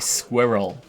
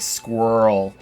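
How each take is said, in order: First: It is said with a British pronunciation. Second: It is said rhyming with whirl, American style.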